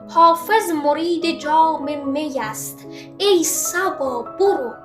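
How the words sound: There is a pause right after 'است'. The verse's meaning comes across clearly. The speaker calls it right. "گفتم حافظ مرید جام می است، مکس، ای صبا برو"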